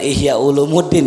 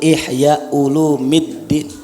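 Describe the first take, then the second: First: The vowel before the final 'ddin' is 'u'. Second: The vowel before the final 'ddin' is 'i'. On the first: The speaker calls it wrong. "Bukan Ihya Ulumuddin ya" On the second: The speaker calls it right. "Yang betul Ihya Ulumiddin"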